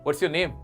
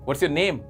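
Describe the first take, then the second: Both takes have the same delivery.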